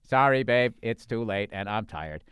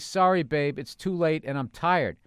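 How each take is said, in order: First: It is said in a flat robotic voice. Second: It is read in a normal natural voice.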